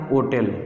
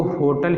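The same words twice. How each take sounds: First: होटल said as "o-tel", starting on the vowel; होटल with no H, begun straight on "o"; English, silent H. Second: होटल as "ho-tal", H sounded; होटल the Hindi way, starting on an audible H; Hindi pronunciation. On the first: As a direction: drop the ह in होटल and end on "tel". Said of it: "English में एच silent हो जाता है". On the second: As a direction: sound the ह in होटल, short "a" before the L. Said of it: "होटल Hindi में पढ़ते हैं". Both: Shown as a demonstration.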